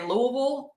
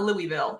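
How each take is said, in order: First: The city name has a Southern pronunciation. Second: The city name has a non-Southern pronunciation. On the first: This is how a local from the South says it. The speaker calls it right. "I am from the South, so I do say Louisville" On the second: This is how outsiders say it. The speaker calls it wrong. "It's not Louisville in my mind"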